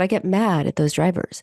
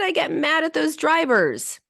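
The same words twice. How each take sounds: First: It is said in a flat, calm tone. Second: It is said with some anger.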